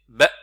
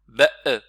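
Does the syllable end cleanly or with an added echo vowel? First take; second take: clean; echo vowel. First: The syllable ends in a clean glottal closure. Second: The final stop is released with a short echo vowel. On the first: The speaker calls it right. "les cordes vocales qui se ferment, tout simplement" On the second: The speaker calls it wrong. "Il faut pas faire qalqala, il faut pas faire ba e"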